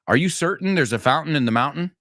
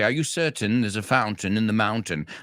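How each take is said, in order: First: It is said in an American accent. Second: It is said in a British accent. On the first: "los americanos hacemos el glottal stop" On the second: "the British would say"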